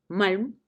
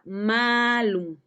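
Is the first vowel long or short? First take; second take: short; long. First: The first vowel is short. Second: The first vowel is long. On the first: It means evil. "con A breve" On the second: It means an apple. "con A larga, que designaba a una manzana"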